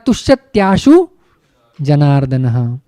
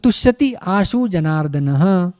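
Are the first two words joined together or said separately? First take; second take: joined; separate. First: The first two words are run together quickly. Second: The first two words are said separately. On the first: "fast बोलेंगे तो तुष्यत्याशु बन जाता है" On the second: "आप तुष्यति आशु भी बोलो"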